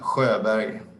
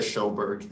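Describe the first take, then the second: First: The name is said with a Swedish pronunciation. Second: The name is said with an American pronunciation. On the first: The speaker calls it right. "would you say it correctly one more time" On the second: The speaker calls it wrong. "the version that I like to tell people, even though it's not correct"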